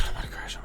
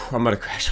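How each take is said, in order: First: Whispered, much softer repeat; tired whispered echo to himself. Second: Said in the usual way. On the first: Real, not acted. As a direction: breathe it out as a whisper. Repeats line under breath.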